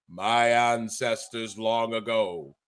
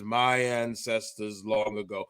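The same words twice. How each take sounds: First: Low, slow, portentous king voice; hammed-up regal proclamation; grand Egyptian king. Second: Abruptly low, slow and softer; portentous mock-regal intoning; grand Egyptian king. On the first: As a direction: intone it slowly like an ancient ruler. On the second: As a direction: drop into a solemn ancient-ruler voice. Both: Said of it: "from Vernon Somoza to the Egyptian king Xerxes".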